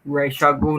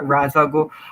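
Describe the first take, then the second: First: The first syllable sounds like 'raysh'. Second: The first syllable sounds like 'rahz'. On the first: This is how the comics and cartoon say it. "a lot of comic artists pronounces it too" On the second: This is how the films say it.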